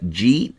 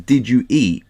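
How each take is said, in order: First: The phrase is squeezed into one short syllable. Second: Each word of the phrase is said in full. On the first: "they just don't pronounce the words" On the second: "your wife says"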